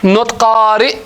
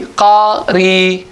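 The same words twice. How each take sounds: First: "qari'" with the glottal stop held at the end; pronounced with hamza. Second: "qari" ending on an open long i, no glottal stop; pronounced without hamza. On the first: Teacher showing students the hamza form "qari'". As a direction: say "qari'" ending on a clear catch in the throat. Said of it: "there's another accent". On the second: Teacher giving students the other accent, "qari" with no hamza. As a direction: let "qari" end smoothly on the long vowel. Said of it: "Not qari', it will be qari". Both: Shown as a demonstration.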